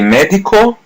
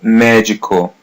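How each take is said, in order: First: The d before i is a plain hard d. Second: The d before i sounds like English j. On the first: The speaker calls it wrong. "don't say medico" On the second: The speaker calls it right. "letters D I are pronounced as G"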